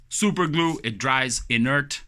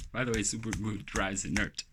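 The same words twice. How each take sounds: First: Super glue punched high and loud; emphatic announcement. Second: Said in the usual way. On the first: Shown as a demonstration. Vlogger announcing the glue to viewers, loud emphatic.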